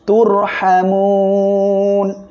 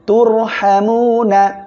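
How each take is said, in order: First: The word ends on n after a lengthened vowel. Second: The word ends with a vowel after the n. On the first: The reader stops at the end of the verse. "ওয়াকফ করলে নুন অক্ষরটি সাকিন হবে ... তিন আলিপ টেনে পড়তে হবে" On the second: The reading continues without stopping. "নুন জবর না তোর হ্যামুনা"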